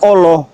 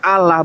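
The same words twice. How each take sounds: First: The word is pronounced in an Arabic way. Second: The word is pronounced in a plain Indonesian way. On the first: It is read by Arabic reading rules. The speaker calls it wrong. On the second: It is read by Indonesian reading rules. The speaker calls it right. "cara baca belajar orang Indonesia"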